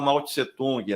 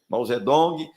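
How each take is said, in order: First: The name is said in its older form. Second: The name is said in its modern form. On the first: This is the form the West got used to. "termo antigo" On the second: This is how the name is said today. "hoje se fala Mao Zedong"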